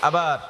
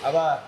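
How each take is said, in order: No difference in how they are said.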